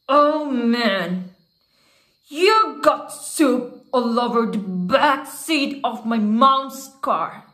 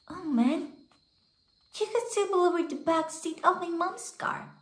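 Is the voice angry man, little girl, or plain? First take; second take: angry man; little girl. First: It is voiced as an angry man in prison. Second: It is voiced as a five-year-old girl.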